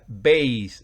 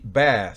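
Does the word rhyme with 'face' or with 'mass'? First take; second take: face; mass. First: The vowel is long, rhyming with face. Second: The vowel is short, rhyming with mass. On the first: It names a low-pitched musical instrument. "si se pronuncia base, ... significa bajo" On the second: It names a kind of fish. "Si se pronuncia así, bass, significa róbalo"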